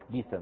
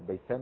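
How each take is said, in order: First: The first syllable has an i vowel. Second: The first syllable has no i vowel.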